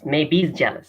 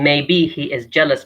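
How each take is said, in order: First: He is is contracted to a short he's. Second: He is is said as two full words. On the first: "he says" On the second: "instead of saying"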